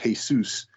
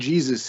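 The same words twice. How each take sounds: First: The name has a Spanish-like pronunciation. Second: The name has an English pronunciation. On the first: This is closer to the original name. "more like in Spanish" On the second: This is the adapted form of the name. "an anglicized version of the original name"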